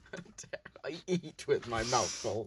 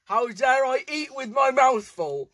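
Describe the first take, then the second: First: Softer, lower, under the breath; quiet mumbled repeat; muttered repeat. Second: Higher, louder, hammed-up indignation; theatrical mock protest; mock outrage. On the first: Real, not acted. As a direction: mutter it to yourself. Quiet repeat of same line. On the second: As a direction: ham up the offence. Mock outrage versus quiet repeat.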